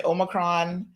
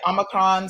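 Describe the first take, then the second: First: "Omicron" opened with a long OH, as OH-muh-kron; OH-micron pronunciation. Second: "Omicron" opened with an AH, as AH-muh-kron; AH-micron pronunciation. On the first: Host showing the other variant people say, "Omicron" as OH-micron. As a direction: say "Omicron" with a first vowel like "oh". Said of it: "So some people say". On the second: Host showing how some people say it, "Omicron" as AH-micron. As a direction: say "Omicron" with a first vowel like "ah". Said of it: "some people say Omicron". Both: Shown as a demonstration.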